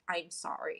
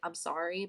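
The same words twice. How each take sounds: First: It sounds deep and heartfelt. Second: It sounds quick and casual.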